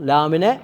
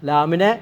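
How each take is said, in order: The two takes are said the same way.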